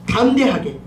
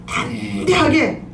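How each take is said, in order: First: Said in the usual way. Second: 담대하게 drawn out slowly, each syllable leaned on, falling at the end; slow emphatic repeat. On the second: Shown as a demonstration. Preacher repeating 담대하게 to the congregation, slow and stressed. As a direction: stretch out 담대하게 slowly and lean on it.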